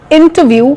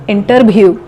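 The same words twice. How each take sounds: First: It is said in a standard English accent. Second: It is said in a Bengali English accent.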